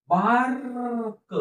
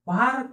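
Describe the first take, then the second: First: Drawn-out sound-by-sound reading of bark; slow blending. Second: Said in the usual way. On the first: Shown as a demonstration. Teacher showing pupils how to blend, drawn out. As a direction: stretch bark slowly, sound by sound. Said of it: "हळूहळू सावकाश म्हणून दाखवत आहे". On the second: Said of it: "शब्द तसा पटकन वाचायला पाहिजे".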